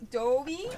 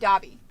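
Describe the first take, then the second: First: The first vowel is a long 'oh' sound. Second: The first vowel is an open 'ah' sound. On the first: "with a long O O" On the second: "the ah the A sound"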